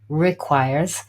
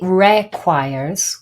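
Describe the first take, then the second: First: The stress is on the second syllable. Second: The stress is on the first syllable. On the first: The speaker calls it right. "the main stress here in this word is the second syllable, not the first" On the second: The speaker calls it wrong. "We don't say requires"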